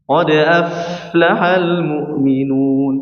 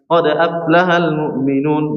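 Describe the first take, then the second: First: The f has a clear flow of breath. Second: The f lacks breath and sounds like p. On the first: The speaker calls it right. "harus jelaskan" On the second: The speaker calls it wrong. "seperti ini tidak menjelaskan sifat ha, hamzah ... salah"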